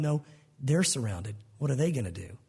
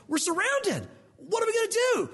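First: Prophet's low, relaxed answer to panic; calm and unbothered. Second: Servant's voice jumping high in alarm; panicked. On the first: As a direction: settle him with a deep, easy calm. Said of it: "Elijah's going". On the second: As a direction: blurt it out in a frightened servant's alarm. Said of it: "he freaks out". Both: Retold or imitated.

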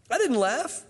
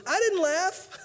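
First: High, nervous denial; afraid denial. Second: Very high, small voice from inside the tent; a tiny, guilty squeak of denial; squeaky denial. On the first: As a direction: deny it in a scared little voice. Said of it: "for she was afraid". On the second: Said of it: "you hear this voice that goes". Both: Retold or imitated.

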